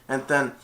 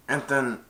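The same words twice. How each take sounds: The two takes are said the same way.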